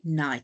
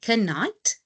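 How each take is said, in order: First: The word begins with an n sound. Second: The word begins with an audible k sound. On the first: The speaker calls it right. "we just say night. So our K is silent" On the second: The speaker calls it wrong. "we do not say knight"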